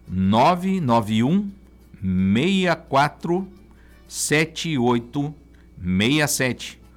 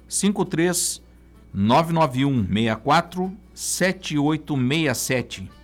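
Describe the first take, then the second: First: The number is said very slowly. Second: The number is said at normal speed.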